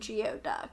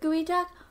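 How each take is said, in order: First: The first part sounds like 'gee-oh'. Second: The first part sounds like 'gooey'. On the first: The speaker calls it wrong. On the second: The speaker calls it right.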